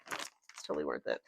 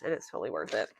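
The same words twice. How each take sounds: First: Much lower and much softer repeat; muttered echo. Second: Said in the usual way. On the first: Real, not acted. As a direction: echo it under your breath, low. Repeats the phrase quietly.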